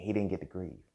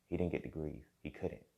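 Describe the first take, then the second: First: Said in the usual way. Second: Softer, sinking repeat of "He didn't get to grieve."; quieter repeat. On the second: Real, not acted.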